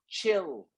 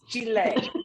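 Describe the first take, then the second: First: The word ends without a final vowel sound. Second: The word ends with an audible final vowel. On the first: The speaker calls it wrong. "you don't say just chill" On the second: The speaker calls it right. "You pronounce the E"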